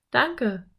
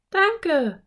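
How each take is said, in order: First: Put-on slightly raised boyish thanks; pleased boy. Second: Put-on high, louder girlish thanks; delighted girl. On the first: Narrator voices Philipp thanking Slim. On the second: Narrator voices Anne thanking Slim. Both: A narrator's reading.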